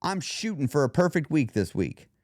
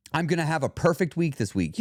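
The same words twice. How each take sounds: First: Aim stated with wiggle room; leaving wiggle room. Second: Definite, absolute promise; absolute prediction. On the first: Showing listeners the alternative, leaving wiggle room. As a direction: offer it as a goal, not a promise. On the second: Showing listeners what not to say, absolute prediction. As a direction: declare it with no wiggle room. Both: Shown as a demonstration. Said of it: "You hear the difference?".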